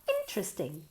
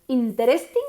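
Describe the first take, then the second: First: The stress is on the first syllable. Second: The stress is not on the first syllable. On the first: The speaker calls it right. "emphasis on the first syllable" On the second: The speaker calls it wrong.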